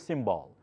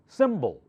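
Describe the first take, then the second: First: The second vowel is a full, unreduced vowel. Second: The second vowel is a weak schwa sound. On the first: The speaker calls it wrong. "Do not say symbol" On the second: The speaker calls it right. "that part here is the schwa sound"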